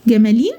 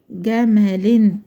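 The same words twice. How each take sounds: First: "جمالين" with a long ee, as a question; wrong long-vowel ending. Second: Low, slow "جمل" ending in short -in; correct tanween kasra. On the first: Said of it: "غلط برضه". (نطق غلط "جمالين" بياء ممدودة، بصيغة سؤال) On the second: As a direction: say "جمل" slowly as gamalin. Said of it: "جمل عادي وآخرها كسرتين". (تنوين بالكسر، "جمل" بتتنطق ببطء جَمَلِن) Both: Shown as a demonstration.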